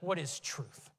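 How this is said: The question is asked with a scoffing tone. The asker dismisses the idea of truth. "did he ask scoffingly?"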